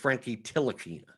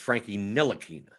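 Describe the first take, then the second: First: The surname begins with a T sound. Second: The surname begins with an N sound. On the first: The speaker calls it wrong. "I always thought it was a silent N" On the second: The speaker calls it right. "says it's a silent T"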